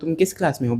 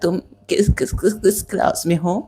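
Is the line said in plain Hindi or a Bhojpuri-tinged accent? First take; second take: plain Hindi; Bhojpuri-tinged. First: It is said in plain standard Hindi. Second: It is said with a rough, Bhojpuri-tinged accent. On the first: The speaker calls it wrong. "ऐसे नहीं बोल रही थी" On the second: The speaker calls it right. "थोड़ा सा भोजपुरी बोल रही थी"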